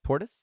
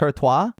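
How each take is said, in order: First: It is said with a plain English pronunciation. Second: It is said with a fancy French-style pronunciation.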